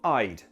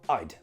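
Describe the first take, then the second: First: It is said slowly with a full, clear vowel. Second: It is said quickly with a lazy, reduced vowel. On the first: "If you're speaking slowly" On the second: "I made it lazy"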